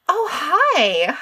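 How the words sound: It sounds eager and enthusiastic.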